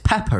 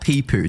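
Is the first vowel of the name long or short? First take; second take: short; long. First: The first vowel is short, as in 'pep'. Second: The first vowel is long, as in 'peep'. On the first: The speaker calls it right. "It's Peppo, right?" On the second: The speaker calls it wrong. "it's not Peepoo"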